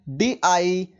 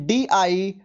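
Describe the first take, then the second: The two takes are said the same way.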